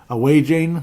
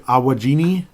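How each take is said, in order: First: The name ends in a long 'ane' sound. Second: The name ends in an added 'ini' sound. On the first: "That's a real common one" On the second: "can I speak to George"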